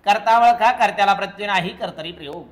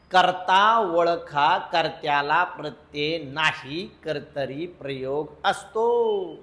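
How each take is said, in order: First: Rattled-off rule, loud at the start, dropping away; quick rule drill. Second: Drawn-out rule, phrase by phrase; slow, measured recital. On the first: Teacher drilling the class on the rule, quick recital. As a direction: fire off the rule briskly, tailing down. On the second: Teacher repeating the rule for the class, slow and deliberate. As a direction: spell the rule out slowly with spaces between phrases. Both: Shown as a demonstration.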